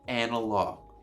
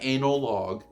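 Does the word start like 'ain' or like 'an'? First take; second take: an; ain. First: The word starts with a short 'an' sound. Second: The word starts like the word 'anal'. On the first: The speaker calls it right. "I'm saying analog" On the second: The speaker calls it wrong. "Not analog"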